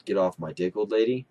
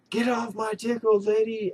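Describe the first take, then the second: First: Said in the usual way. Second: Much higher, yelled out of nowhere; sudden yell. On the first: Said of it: "and he remembered". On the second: Retold or imitated. Pinned gamer yells the line down his mic, sudden yell. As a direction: blurt it out like a gamer yelling at a screen. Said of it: "he yells".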